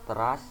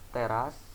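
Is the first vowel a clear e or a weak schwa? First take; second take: schwa; clear e. First: The first vowel is a weak schwa sound. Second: The first vowel is a clear e sound. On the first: It means core or essence. "diucapkan seperti dalam kata beras" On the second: It means part of a building. "diucapkan seperti dalam kata elok"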